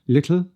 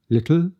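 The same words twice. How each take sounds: First: The final L is light, tongue back not lowered. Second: The final L is dark, tongue back lowered. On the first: The speaker calls it wrong. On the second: The speaker calls it right.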